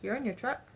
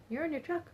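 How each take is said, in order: First: Said in the usual way. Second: Pitched up high, pressing the point harder on "You're in your truck"; "You're in your truck" repeated higher and more insistent. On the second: Retold or imitated. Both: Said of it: "And I'm like".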